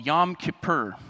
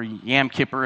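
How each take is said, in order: First: The first word has the vowel of 'yom'. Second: The first word has the vowel of 'yam'.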